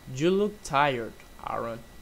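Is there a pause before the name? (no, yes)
yes. There is a short pause before the name. The speaker calls it right. "with a little stop before the name"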